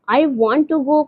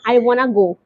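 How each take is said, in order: First: 'Want to' is said as two full words. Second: 'Want to' is blended into one word, 'wanna'.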